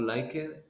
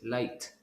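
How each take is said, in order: First: The ending is said as an extra syllable. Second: The ending is a short t sound. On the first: The speaker calls it wrong. "It's not like it" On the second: The speaker calls it right. "it's light"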